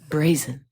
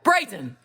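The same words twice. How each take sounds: First: It is said in a soft, ordinary voice. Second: It is said in a strong, powerful voice.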